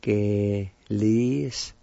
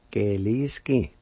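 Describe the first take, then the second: First: Geliski drawn out syllable by syllable, very slow. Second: Geliski said a bit slow with a falling end; Geliski at near speed. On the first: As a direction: stretch Geliski out slowly for learners. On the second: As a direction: model Geliski for repeating. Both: Shown as a demonstration. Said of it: "It's pronounced like this".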